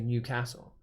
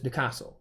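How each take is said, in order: First: The name is said slowly with every syllable clear. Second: The name is said very quickly and run together. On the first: This is how most outsiders say it. "most people who say Newcastle just say Newcastle" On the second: This is how locals say it. "But it's Newcastle. It's really quick"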